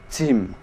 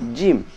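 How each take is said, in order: First: The letter is said with escaping breath. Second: The letter is said without escaping breath. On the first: The speaker calls it wrong. "tidak boleh disertai keluarnya nafas" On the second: The speaker calls it right. "tapi jim"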